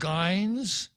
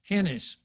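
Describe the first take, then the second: First: The name begins with a hard G sound. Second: The name begins with an H sound. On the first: Some people would say it this way. "some people would call her" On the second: This follows Spanish spelling rules. "the pronunciation using the, the orthography from Spain"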